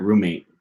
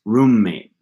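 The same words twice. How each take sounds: First: Said in the usual way. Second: "roommate" with the m held long, slowly. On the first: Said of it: "It's not roommate". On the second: Shown as a demonstration. Explaining geminates, "roommate" with a long held m. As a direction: linger on the m in "roommate". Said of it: "It's roommate".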